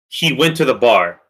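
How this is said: It is said in a flat statement tone. It is just a plain statement of fact. "just in that tone, that that's just a statement"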